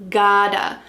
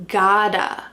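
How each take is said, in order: The two takes are said the same way.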